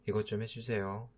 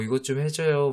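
First: Stiff polite ask, much softer; curt formal favour; cold formal request. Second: Bright, smiling ask, a bit higher; friendly smiling favour; smiling request. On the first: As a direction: say it coldly like a stranger. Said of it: "화난 사람 같잖아". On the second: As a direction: ask it sweetly with a smile. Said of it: "웃으면서". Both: Retold or imitated.

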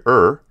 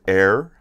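First: Er as a firm r-coloured "ur", louder; corrected two. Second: Er said as "air"; mispronounced two. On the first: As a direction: hit er hard with a curled r. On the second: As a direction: let er slip into an "air" vowel. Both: Shown as a demonstration. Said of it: "I'm sorry".

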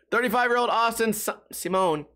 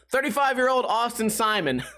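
First: "Simone" said see-MOHN after a stumble; stumble, then settle on see-MOHN for "Simone"; deliberate mispronunciation. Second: "Simon" said SIGH-mun; careful retake, "Simon" stressed on first syllable; corrected surname. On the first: Reading the article, giving in to "Simone" as see-MOHN. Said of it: "I'm gonna keep saying Simone". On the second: Restarting the article sentence, "Simon" said SIGH-mun. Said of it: "Why do I always say Simone?". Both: Real, not acted.

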